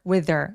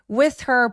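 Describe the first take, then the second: First: The th sound is voiced. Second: The th sound is voiceless. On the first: "th는 울림이 있게" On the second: "울림 없이"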